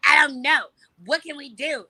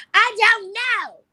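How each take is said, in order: First: High, loud, petulant whine; bratty whine. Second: Very high, loud, long-drawn whine; full bratty wail. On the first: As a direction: whine helplessly like a spoiled kid. Retells her bratty indecision to friends. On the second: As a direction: stretch I DON'T KNOW into a squealing tantrum. Retells escalated bratty answer to friends. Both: Retold or imitated.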